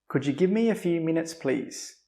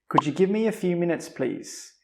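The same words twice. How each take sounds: No difference in how they are said.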